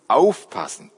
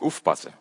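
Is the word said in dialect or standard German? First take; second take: standard; dialect. First: It is said in standard German. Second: It is said in the Mannheim dialect.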